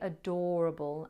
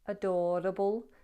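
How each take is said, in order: First: The R is bunched without a tap. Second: The R is a tongue-tip tap. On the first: "I would not do that in my modern R P accent. I'd say adorable" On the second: "with a Liverpool accent, it's a tapped sound"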